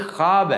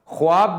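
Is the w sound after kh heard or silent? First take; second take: silent; heard. First: No w sound is heard after the kh. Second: A w sound is heard after the kh. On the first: The speaker calls it right. "ये ख्वाब है" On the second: The speaker calls it wrong. "ख्वाब भी गलत है"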